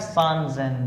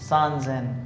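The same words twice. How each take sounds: No difference in how they are said.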